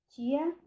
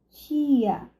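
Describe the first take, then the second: First: The vowel is held short. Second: The vowel is held long. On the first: "mais breve" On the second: "mais longa"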